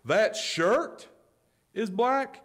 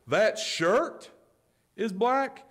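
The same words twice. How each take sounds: First: It is said in a superior, arrogant tone. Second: It is said in a superior, arrogant tone.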